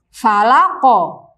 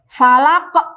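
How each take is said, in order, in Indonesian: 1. Kata falaq berakhir dengan pantulan ringan seperti bunyi a. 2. Kata falaq berakhir dengan hentian glotal. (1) "seolah-olah sukunnya itu dia seperti fathah dan tidak diakhiri dengan huruf ham hamzah. Saya contohkan" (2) "dikasih akhiran hamzah"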